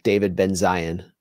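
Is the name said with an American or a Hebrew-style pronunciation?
American. The name is said with an American pronunciation.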